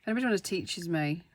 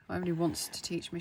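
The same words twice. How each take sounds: First: "teaches" said as a fumbled slip before the fix; casual fumbled wording "teaches"; slip of the tongue. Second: "teach" said as a quicker corrected redo; brisk correction, "teach me" set right; quick self-correction. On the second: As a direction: rush through the fixed "teach me". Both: Real, not acted. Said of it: "should I say".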